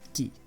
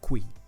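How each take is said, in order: First: The u is silent, just k plus i. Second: The u is pronounced as a w after k. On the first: The speaker calls it right. "this is ki" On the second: The speaker calls it wrong. "this is not qui"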